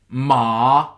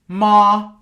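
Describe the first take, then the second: First: The pitch dips down then rises again. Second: The pitch stays high and level. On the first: It means horse. "which is the falling rising. So you go down and then you go back up" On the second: It means mother. "which is the high tone"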